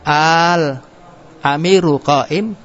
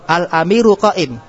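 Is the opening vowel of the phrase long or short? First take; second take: long; short. First: The opening vowel is drawn out long. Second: The opening vowel is short, not drawn out. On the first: It asks whether the leader is standing. "panjang. Al-amiru qa'im, ada mad" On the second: It states that the leader is standing. "kalau tadi al-amiru qa'im, pemimpin itu berdiri"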